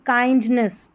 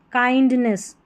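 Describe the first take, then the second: No difference in how they are said.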